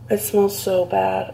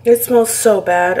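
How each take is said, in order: First: Said in the usual way. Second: Loud, slow, disgusted complaint. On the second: Real, not acted. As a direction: groan it out in disgust. Repeats disgust at the smell.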